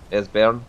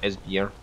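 First: The second syllable does not sound like 'beer'. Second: The second syllable sounds like 'beer'. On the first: The speaker calls it right. "Esbjorn, not" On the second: The speaker calls it wrong. "I keep saying beer"

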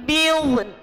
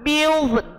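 The two takes are said the same way.

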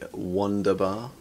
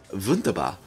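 First: It is said with an anglicized pronunciation. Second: It is said with a German-like pronunciation. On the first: The speaker calls it wrong. "I should have said that properly" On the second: The speaker calls it right. "Nothing worse than absolutely masticating someone else's language"

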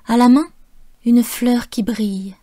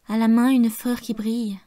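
First: There is a pause after 'main', which is stressed. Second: It flows on without a pause after 'main'. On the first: "j'ai décidé par moi-même de faire des pauses et d'accentuer les mots main" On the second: "quatre vers que j'aurais pu prononcer différemment"

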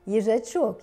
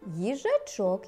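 First: The line is said at a faster pace. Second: The line is said at a slower pace.

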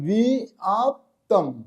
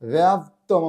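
First: The word begins with a separate 'bi-a' sound. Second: The word begins with a single 'bya' sound. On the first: The speaker calls it right. "এটা রয়েছে বিআপ্তম" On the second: The speaker calls it wrong. "ব্যাপ্তম আমরা যেটা বলি"

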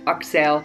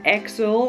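First: The name is said with a Turkish pronunciation. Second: The name is said with an English pronunciation. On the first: The speaker calls it right. "you say it like [name]" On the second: The speaker calls it wrong. "It's not Axel, like [name] from Guns N' Roses"

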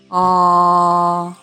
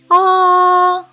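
First: The voice is low in pitch. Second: The voice is high in pitch. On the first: "низьким голосом кричить" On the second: "кричить високим голосом"

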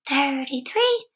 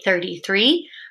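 First: It is said in a tiny squeaky voice. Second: It is said in a normal voice.

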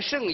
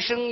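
First: The syllable is said with a falling tone. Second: The syllable is said with a level tone. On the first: It means surpassing or exceeding. The speaker calls it wrong. "不应该是仄声字" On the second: It means fully matching or being equal to. The speaker calls it right. "一定是一个平声字"

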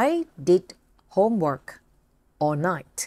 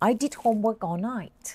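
First: The sentence is said slowly, word by word. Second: The sentence is said a little faster.

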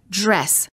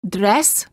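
First: The D before the R sounds almost like j. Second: The D before the R sounds like a plain D. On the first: The speaker calls it right. "we say dress" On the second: The speaker calls it wrong. "Instead of dress"

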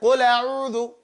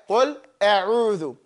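First: Qul runs straight into a'udhu without a catch. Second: A glottal catch separates qul from a'udhu.

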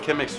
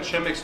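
First: The word does not begin with a sh sound. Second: The word begins with a sh sound. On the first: This is how some other people say it. "Bazı insanlar Chemex diyorlar" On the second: This follows the English reading of the letters. "ben Chemex diyorum ... Çünkü C-H-Ş okunur İngilizce'de"

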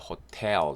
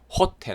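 First: The stress is on the second syllable. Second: The stress is on the first syllable. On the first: The speaker calls it right. "강세가 호텔 됩니다" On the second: The speaker calls it wrong. "호텔 아니고요"

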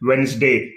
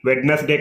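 First: The middle d sound is left out. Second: The middle d sound is clearly pronounced. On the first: The speaker calls it right. "డి అనేది silent letter" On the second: The speaker calls it wrong. "వెడ్నెస్డే కాదు"

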